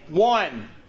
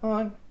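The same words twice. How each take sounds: First: The word is said loudly and clearly. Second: The word is said quietly and unclearly. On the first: The speaker calls it right. "it's called enunciation and volume. You say one" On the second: The speaker calls it wrong. "You don't go one"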